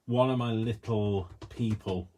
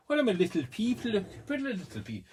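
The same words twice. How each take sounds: First: Said in the usual way. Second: Very high, silly attempt at a French accent; badly faked French accent, pitched way up; mock French accent. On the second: Vlogger clowning about her little people, mock French accent. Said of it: "don't try and do a Fr-, uh, French".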